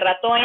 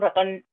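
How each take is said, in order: First: An extra e vowel is added at the end. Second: The word ends cleanly on the n sound. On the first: The speaker calls it wrong. "Si te dice ratón, ¿eh?" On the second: The speaker calls it right. "sin la última E"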